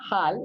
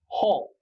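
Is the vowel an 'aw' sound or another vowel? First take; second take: other; aw. First: The vowel is not an open 'aw' sound. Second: The vowel is an open 'aw' sound. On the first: The speaker calls it wrong. "it's not hal" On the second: The speaker calls it right. "it's hall, hall, all, like an O"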